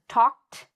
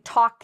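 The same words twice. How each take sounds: First: The ending is a plain t sound. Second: The ending is not a plain t sound. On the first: The speaker calls it right. "the correct pronunciation is talked" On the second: The speaker calls it wrong. "notice I'm not saying talked"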